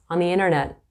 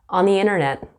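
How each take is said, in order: No difference in how they are said.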